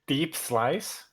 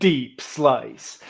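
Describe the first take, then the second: First: It is said in an ordinary speaking voice. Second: It is said in a dramatic announcer voice.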